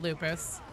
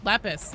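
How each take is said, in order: First: "lupus" with a long oo in the first syllable; "lupus", first vowel as in "loop"; mistaken pronunciation. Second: "Lepus" with a short e in the first syllable; "Lepus", first vowel as in "pep"; corrected pronunciation. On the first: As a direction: say "lupus" as LOO-pus. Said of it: "Lupus is a disease. I'm sorry". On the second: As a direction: say "Lepus" as LEP-us. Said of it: "not lupus". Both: Shown as a demonstration.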